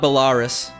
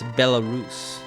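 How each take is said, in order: First: The word ends sounding like 'walrus'. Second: The word does not end like 'walrus'. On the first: The speaker calls it wrong. "It's not Belarus, no. It's not like a walrus's distant cousin" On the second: The speaker calls it right. "It's Belarus. Sounds fancier that way"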